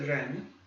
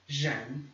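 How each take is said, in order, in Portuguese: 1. O primeiro som é como o R do inglês. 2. O primeiro som é como o J do português. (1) "ou você tenta normalmente pronunciar um R da língua inglesa" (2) "ou você puxa mais a sua língua para o palato e pronuncia isso como se fosse um J"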